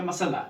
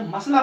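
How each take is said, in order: First: मसला in three syllables, ma-sa-la; taught pronunciation. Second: मसला in two syllables, mas-la; common pronunciation. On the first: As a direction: open a vowel after the स in मसला. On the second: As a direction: run स into ल in मसला. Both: Shown as a demonstration. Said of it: "फिर पढ़ेंगे मसला".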